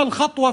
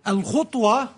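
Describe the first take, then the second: First: "الخطوة" as khatwa, a after خ; fatha on the kha. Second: "الخطوة" as khutwa, u after خ; damma on the kha. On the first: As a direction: review "الخطوة" with a distinct a vowel. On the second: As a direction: review "الخطوة" with a distinct u vowel. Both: Shown as a demonstration. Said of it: "الفرق بين الضم والفتح".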